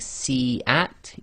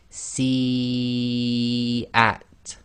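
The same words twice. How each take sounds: First: The first vowel is held short. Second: The first vowel is held long. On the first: The speaker calls it wrong. "instead instead of saying si at" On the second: The speaker calls it right. "you'd recite si at. So for and then the at, for long"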